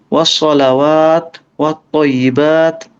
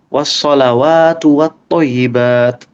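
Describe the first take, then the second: First: Each word is said separately with a pause. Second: Both words flow together without a pause. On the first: The speaker calls it wrong. "bolehkah dipisah per kata? ... Bisa aja sih, cuman kurang enak aja" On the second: The speaker calls it right. "Mending satu kalimat gitu. ... yang enak tuh kayak gitu"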